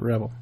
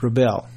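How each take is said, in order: First: The stress is on the first syllable. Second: The stress is on the second syllable. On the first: It refers to a rebel person. The speaker calls it wrong. "Not like Johnny Rebel" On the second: It refers to rebelling, as in rebellion. The speaker calls it right. "it's Rebel, not Rebel. Like Rebellion"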